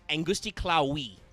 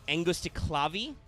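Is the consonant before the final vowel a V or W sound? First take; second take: W; V. First: The last consonant is a soft W sound. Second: The last consonant is a hard V sound. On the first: "there's no hard V sound in, in Latin" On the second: "you would not go wrong technically"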